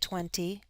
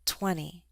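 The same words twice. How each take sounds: First: The T sound is clearly pronounced. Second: The T sound is left out. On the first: "it's perfectly fine to say the T. You can say twenty" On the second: "we often drop the T after an N"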